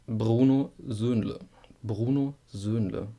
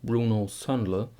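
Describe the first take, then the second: First: "Bruno Söhnle" with a rolled German R and rounded ö. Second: "Bruno Söhnle" with an English r and flat o; wrong English reading. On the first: Teacher modelling the German R in "Bruno Söhnle". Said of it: "because of the R". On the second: Teacher showing the English error on "Bruno Söhnle". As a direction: mimic the mistake "Bruno Söhnle". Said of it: "It's not". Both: Shown as a demonstration.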